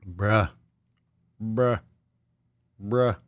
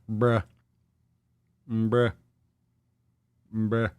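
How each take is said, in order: Both takes have the same delivery.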